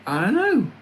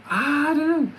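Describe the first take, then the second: First: Mock puzzled. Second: Silly high voice. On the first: Musing in put-on voice. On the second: Acted. Repeats higher, sillier voice.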